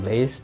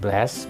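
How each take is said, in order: First: The vowel is a pure e sound. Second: The vowel is a pure open a sound. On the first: "bukan blaze" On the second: "bukan blast"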